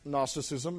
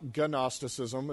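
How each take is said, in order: First: The word starts with an N sound. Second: The word starts with a hard G sound. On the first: The speaker calls it right. "Gnosticism is pronounced Gnosticism" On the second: The speaker calls it wrong. "not Gnosticism"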